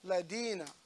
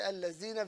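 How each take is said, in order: First: The middle consonant is a d sound. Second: The middle consonant is a z sound. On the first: "converting the dina, the thou, to a dal" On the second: "There's no zai there"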